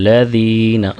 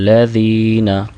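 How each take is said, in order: No difference in how they are said.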